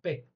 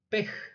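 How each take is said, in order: First: The word ends on the vowel, no consonant. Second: The word ends with an audible breathy consonant. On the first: The speaker calls it right. "por eso es muda" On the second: The speaker calls it wrong. "Pej sería"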